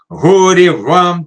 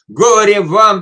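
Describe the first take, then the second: First: It is said with irritation and dislike. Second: It is said with strong emotional intensity. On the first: The words carry personal ill will. "мы говорим с неприязнью, с раздражением, с нелюбовью" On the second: The words carry strong emotion. "с таким эмоциональным накалом"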